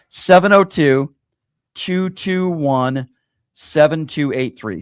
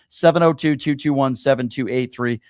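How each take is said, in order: First: The number is read slowly and deliberately. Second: The number is read at a normal pace.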